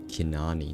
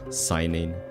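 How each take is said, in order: First: The name begins with a K sound. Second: The name begins with an S sound. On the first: The speaker calls it right. "that's how you pronounce it" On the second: The speaker calls it wrong. "I pronounced it wrong last time"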